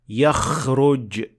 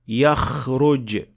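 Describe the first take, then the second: First: The kh is exaggerated, snore-like, further forward. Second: The kh is exaggerated, snore-like, further forward.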